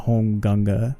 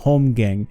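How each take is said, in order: First: It ends with two syllables, gunga. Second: It ends with a single syllable, gang. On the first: The speaker calls it right. "I like saying home gunga from the Old Norse" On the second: The speaker calls it wrong. "I don't like saying home gang"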